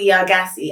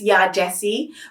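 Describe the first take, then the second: First: The surname starts with a hard G sound. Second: The surname starts with a J sound. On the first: The speaker calls it wrong. "but I pronounce it Ya Gassi" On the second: The speaker calls it right. "I hear that it's Ya Jessie"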